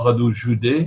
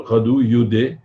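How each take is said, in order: First: Joudé, zhoo-day, carefully corrected; corrected name. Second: Youdé said with a y sound at the start; Youdé pronounced like yoo-day; wrong name. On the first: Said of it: "excusez-moi". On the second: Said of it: "c'est Joudé, effectivement". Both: Real, not acted.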